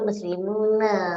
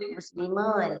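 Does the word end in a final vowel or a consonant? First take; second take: final vowel; consonant. First: The word ends with a final vowel. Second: The word ends on the consonant n. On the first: The speaker calls it right. "Sebut muslimuna" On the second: The speaker calls it wrong. "Jangan sebut muslimun"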